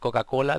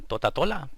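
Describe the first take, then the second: First: The word is said with k sounds. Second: The k sounds are replaced with t sounds. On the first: The speaker calls it right. "en lugar de decir Coca-Cola" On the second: The speaker calls it wrong. "dicen Totatola"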